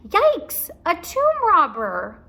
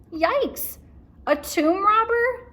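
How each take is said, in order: First: High, loud, slow yelp; scared reading voice. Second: High, louder yelp of fright; scared Annie. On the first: Shown as a demonstration. Teacher re-reading Annie's line, frightened yelp. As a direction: repeat the fright with feeling. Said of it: "in my reading voice". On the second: A narrator's reading. Annie hearing about the tomb robber, frightened yelp. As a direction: squeak it out in alarm. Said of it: "said Annie".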